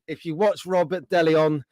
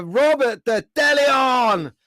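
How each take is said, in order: First: "Robert de Leon" with a single "de" before Leon; corrected name. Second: "Robert de Deleon", with a doubled "de" before Leon; slow, stretched "Robert de Deleon", said wrong; mispronounced name. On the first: Host corrects the viewer's name he fumbled. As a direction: set it right: "Robert de Leon". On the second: Host announces a viewer's name and slips. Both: Real, not acted. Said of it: "I said it wrong earlier".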